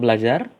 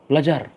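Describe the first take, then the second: First: It is said with a questioning tune. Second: It is said with a firm commanding tune. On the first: The speaker asks whether the listener studies. "kalau belajar kan mau bertanya" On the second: The listener is told to study. "kan berarti kan harus imperatif ya dari intonasinya"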